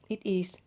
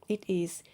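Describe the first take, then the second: The two takes are said the same way.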